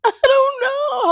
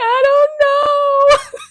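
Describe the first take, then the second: First: High, loud, laughing through the words. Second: High, much louder, slow tearful whine; whiny crying kid. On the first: Real, not acted. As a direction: laugh at yourself while repeating it. Laughs at own childhood crying. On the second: Retold or imitated. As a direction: wail it like a confused crybaby child. Retold crying child answering mother.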